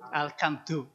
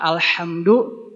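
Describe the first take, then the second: First: The middle consonant is a hard k sound. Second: The middle consonant is a breathy h sound. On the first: The speaker calls it wrong. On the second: The speaker calls it right.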